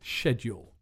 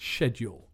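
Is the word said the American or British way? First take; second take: British; British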